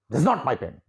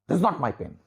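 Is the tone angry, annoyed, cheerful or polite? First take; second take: angry; angry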